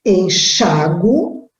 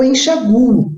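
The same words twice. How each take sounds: First: "enxago" said slowly with the stress on the A, "en-XA-go"; slow, careful "enxago" with the A as the strong syllable. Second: "enxaguo" said slowly with the U pronounced and stressed, "en-xa-GU-o"; slow, careful "enxaguo" leaning on the U. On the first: Teacher showing students "enxago" with the stress on A, slowly. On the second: Teacher showing students "enxaguo" with the U sounded and stressed. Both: Shown as a demonstration. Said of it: "Esse verbo eu posso dizer ou ler".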